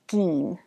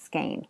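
First: The vowel is pronounced as a different vowel. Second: The vowel is pronounced as a long A. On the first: The speaker calls it wrong. "not skein" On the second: The speaker calls it right. "The correct pronunciation of skein, S-K-E-I-N, is skein with a long A"

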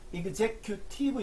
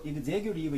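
First: The t is a clear, crisp t sound. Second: The t is a soft flap, like an l. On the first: "T는 T 발음이 나도 되고" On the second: "리을 발음이 돼도 상관이 없습니다"

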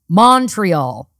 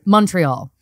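First: The first vowel sounds like an 'o'. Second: The first vowel sounds like a 'u'. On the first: This is how outsiders say it. The speaker calls it wrong. "They go Montreal" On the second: This is how locals say it. The speaker calls it right. "It's almost like a U, and that is how we say it"

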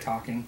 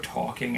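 First: It is said with a neutral accent. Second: It is said with a New York accent.

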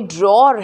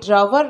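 First: It is said as one syllable, like 'dror'. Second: It is said as two syllables, like 'dra-wer'. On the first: The speaker calls it right. "ये ड्रॉर है" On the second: The speaker calls it wrong. "ये ड्रावर नहीं है"

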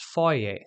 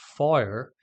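First: It is said with a British pronunciation. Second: It is said with an American pronunciation. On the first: "in British English it is foyer" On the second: "in American English this is pronounced foyer"

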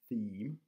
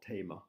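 First: It starts with th and ends in one syllable. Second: It starts with t and has two syllables. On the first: The speaker calls it right. "help with the pronunciation of this word, theme" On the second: The speaker calls it wrong. "It's not tema"

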